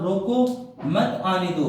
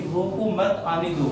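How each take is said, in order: First: "रोको" rising, a clear pause, then "मत आने दो" as one unit; pause after रोको. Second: Group "रोको मत" together, then let "आने दो" follow; break after मत. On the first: Teacher moving the mark one word earlier, pause after "रोको". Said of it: "एक डिजिट के बाद लगा देता हूँ". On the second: Teacher showing how the comma changes meaning, break after "मत". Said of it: "कितना मतलब इनका सेंटेंस चेंज हो जाता है". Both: Shown as a demonstration.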